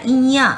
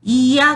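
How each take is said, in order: First: "इया" with the final vowel through the nose; nasalised ending. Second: Said in the usual way. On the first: Shown as a demonstration. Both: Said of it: "नाक से जो उच्चारण हो".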